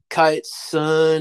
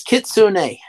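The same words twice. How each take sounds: First: Kitsune said as KYE-tsun, two syllables, long i; wrong pronunciation. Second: Kitsune said slowly as kit-soo-NAY, three syllables; proper Japanese pronunciation. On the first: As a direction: Kitsune mispronounced KYE-tsun with the final e dropped. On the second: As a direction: Kitsune with short i and the final e spoken as nay. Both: Shown as a demonstration. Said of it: "no, it's Kitsune".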